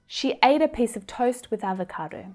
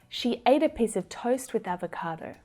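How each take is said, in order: No difference in how they are said.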